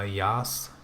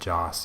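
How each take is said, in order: First: The name begins with a Y sound. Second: The name begins with a J sound. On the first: "the J is supposed to be pronounced with a Y" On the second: "instead of Joss"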